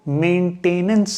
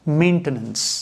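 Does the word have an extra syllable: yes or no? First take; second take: yes; no. First: The word is said with an extra syllable. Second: The word is said without an extra syllable. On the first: The speaker calls it wrong. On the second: The speaker calls it right.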